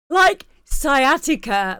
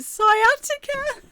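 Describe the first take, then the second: First: Said in the usual way. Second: Sciatica with a high, drawn-out [name]; [name] pronounced. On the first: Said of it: "It's like [name]". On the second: Shown as a demonstration. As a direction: stretch Sciatica slowly, stressing the [name]. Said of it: "It's like [name], but P S Y".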